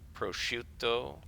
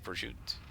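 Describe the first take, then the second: First: The final vowel is fully pronounced. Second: The final syllable is chopped off. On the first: This is the formal standard Italian form. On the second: This is the grandmother's dialect form.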